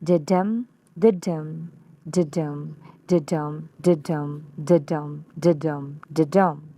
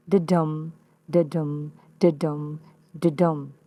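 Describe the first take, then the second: First: Da-dum chanted with the beat on Da, stressed Da then light dum; falling trochaic rhythm, stress on Da. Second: Da-dum chanted with the beat on dum, light da then stressed dum; steady iambic chant, stress on dum. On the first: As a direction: chant da-dum with the first syllable hit hard. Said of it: "you'll notice the opposite pattern". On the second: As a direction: tap out da-dum, da-dum, stressing dum each time. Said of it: "has the following metrical pattern". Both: Shown as a demonstration.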